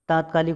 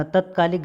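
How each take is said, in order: First: तात्कालिक opening on long "taat"; long first vowel. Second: तत्कालिक opening on short "tat"; wrong short vowel. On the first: Teacher correcting students, long "taat" in तात्कालिक. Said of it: "होता है". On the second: Teacher showing the error, short "tat" in तत्कालिक. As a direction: keep the first a of तत्कालिक brief. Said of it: "गलत है". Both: Shown as a demonstration.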